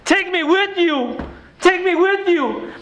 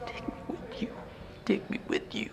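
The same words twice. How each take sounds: First: Much higher and slower, pained and pleading; anguished repeat. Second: A whisper, almost no sound; silent lip-read plea. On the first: Real, not acted. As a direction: cry out the words that haunt you. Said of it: "I can't get them out of my mind". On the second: Retold or imitated. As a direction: mouth it like a boy behind a window. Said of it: "I could read his lips. And he's saying".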